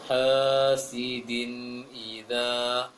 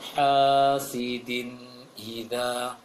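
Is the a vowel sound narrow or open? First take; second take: narrow; open. First: The a vowel is said narrow and slanted. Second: The a vowel is said with a wide-open mouth. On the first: The speaker calls it wrong. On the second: The speaker calls it right.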